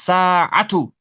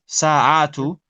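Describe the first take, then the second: First: Sa'atu said slowly with a clear ayn; teacher's slow model of sa'atu; slow careful model. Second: Sa'atu with a clear ayn in the middle; sa'atu said with the ayn, no extra length; saatu with the ayn. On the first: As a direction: draw out sa'atu carefully for the student. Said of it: "It's sa'atu". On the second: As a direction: catch the ayn before the long a. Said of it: "It's not atu". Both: Shown as a demonstration.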